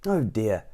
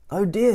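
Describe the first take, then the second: First: Gentle kindly concern. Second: Kindly concern. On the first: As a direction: say it gently to the fainted one. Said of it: "for he was a kindly tramp". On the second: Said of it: "he said, kindly tramp". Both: Acted.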